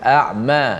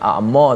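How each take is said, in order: First: The mim sound is open and thin. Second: The mim sound is heavy and full. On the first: The speaker calls it right. "dibuka mim tu dibaca dengan dengan nipis" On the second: The speaker calls it wrong. "a'ma tak boleh"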